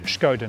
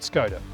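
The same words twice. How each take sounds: First: The name begins with a 'sh' sound. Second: The name begins with a plain 's' sound. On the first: The speaker calls it right. "the accent above the S in Skoda, which by the way means it's Skoda" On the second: The speaker calls it wrong. "not Skoda"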